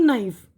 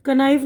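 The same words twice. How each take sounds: First: Said in the usual way. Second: कनाइफ with the silent k wrongly sounded; wrong pronunciation. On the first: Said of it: "नहीं बोलेंगे हम". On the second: Shown as a demonstration. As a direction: say कनाइफ with an audible "ka" before the n. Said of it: "कनाइफ नहीं बोलेंगे हम". (कनाइफ, शुरू में "क" की आवाज़ के साथ)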